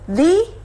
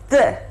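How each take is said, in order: First: It is said in its before-vowel form. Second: It is said in its before-consonant form. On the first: "When you use it with vowel, try to pronounce that as the" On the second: "When you're using with the consonant, try to pronounce as the"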